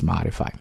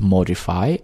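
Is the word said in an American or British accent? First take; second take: American; British. First: It is said with an American accent. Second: It is said with a British accent. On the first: "if you're speaking American accent, that's modify" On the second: "either you're speaking British accent, then it's modify"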